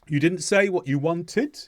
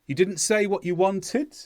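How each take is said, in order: First: The pitch rises on the final syllable. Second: The pitch rises on the final syllable.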